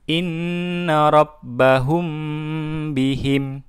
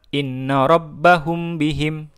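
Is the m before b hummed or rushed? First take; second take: hummed; rushed. First: The m is held with a nasal hum. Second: It is read quickly without a nasal hum. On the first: The speaker calls it right. "agak didengungkan" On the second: The speaker calls it wrong. "jangan dibaca cepat"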